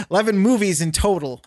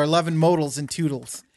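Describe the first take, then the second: First: Said in the usual way. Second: "modals and toodles" with matching oodle endings; playful mispronunciation. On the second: Shown as a demonstration. Joking about own slip to co-host, "modals and toodles" rhymed. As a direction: garble it as "modals and toodles", vowels swapped for fun. Playfully repeats the garbled words.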